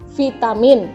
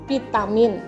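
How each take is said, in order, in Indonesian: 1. Kata ini diawali bunyi v atau f. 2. Kata ini diawali bunyi p. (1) "Contoh, vitamin" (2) "Ada yang mengatakan dengan vitamin"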